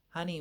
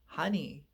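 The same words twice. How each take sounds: First: It is said flat and monotone. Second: It is said lively with a melodious range. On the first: The speaker calls it wrong. "See how flat and one-dimensional those words are" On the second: The speaker calls it right. "It's a whole different way"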